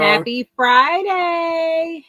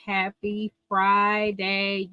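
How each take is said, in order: First: Slow, higher, louder happy greeting; drawn-out greeting. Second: Said in the usual way. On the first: Real, not acted. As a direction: stretch it out to hype the chat. Stream greeting, repeated.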